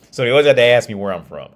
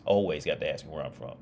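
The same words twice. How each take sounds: First: Laughing. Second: Said in the usual way. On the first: Real, not acted. Telling friends about locals, loud laughing. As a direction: still laughing, louder and quicker.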